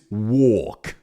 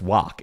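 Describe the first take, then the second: First: It is drawn out, in an Australian accent. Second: It is said short, in a North American accent.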